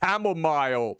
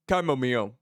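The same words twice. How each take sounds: First: The last syllable sounds like the word mile. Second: The last syllable does not sound like mile. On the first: The speaker calls it wrong. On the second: The speaker calls it right.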